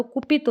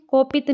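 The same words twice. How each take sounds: First: "कुपित" with a u, "ku-pit"; correct pronunciation. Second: "कोपित" with an o, "ko-pit"; wrong pronunciation. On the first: Teacher correcting students, "कुपित" said with a u. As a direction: say "कुपित" opening on "ku". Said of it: "पहली बात तो कुपित होता है". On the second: Teacher showing students the mistake, "कोपित" said with an o. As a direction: say "कोपित" opening on a long "ko". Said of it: "नहीं होता". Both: Shown as a demonstration.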